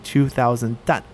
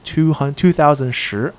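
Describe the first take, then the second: First: The measure word is pronounced dan. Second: The measure word is pronounced shi. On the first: The speaker calls it right. "it should be two thousand dan" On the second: The speaker calls it wrong. "this is actually a mistake"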